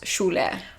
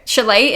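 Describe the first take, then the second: First: The name is said with its Turkish pronunciation. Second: The name is said in an anglicized Australian way. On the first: This is the name's original ethnic pronunciation. "with being Turkish, it's pronounced Şule" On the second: This is how the name is said in Australia. "chalet in Oz"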